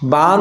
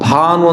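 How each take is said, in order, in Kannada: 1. ಮೊದಲ ವ್ಯಂಜನ ಅಲ್ಪಪ್ರಾಣ. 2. ಮೊದಲ ವ್ಯಂಜನ ಮಹಾಪ್ರಾಣ. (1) "ಅಲ್ಪ ಪ್ರಾಣ ಅಂದ್ರೆ ಆಕಾಶ" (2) "ಮಹಾಪ್ರಾಣ ಅಂದ್ರೆ ಸೂರ್ಯ"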